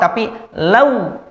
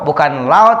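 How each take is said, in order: First: The diphthong is pronounced softly and smoothly. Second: The diphthong is pronounced harshly, not softly. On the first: The speaker calls it right. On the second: The speaker calls it wrong.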